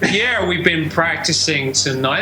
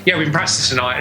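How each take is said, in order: First: It is said slowly and clearly. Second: It is said quickly and flatly.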